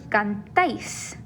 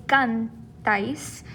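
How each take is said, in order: First: CanTÁIS, with the weight on the end; cantáis said with emphasis landing on TÁIS; stress on last syllable. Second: CANtáis, with the weight wrongly on CAN; cantáis said with emphasis up front on CAN; stress on first syllable. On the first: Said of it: "That stress is there on the end". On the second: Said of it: "We see the accent instead". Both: Shown as a demonstration.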